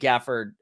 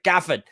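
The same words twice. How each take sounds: First: The name is said in a plain, unaffected accent. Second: The name is said in a British accent.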